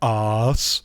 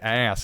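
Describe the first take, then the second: First: It is said with a British accent. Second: It is said with an American accent.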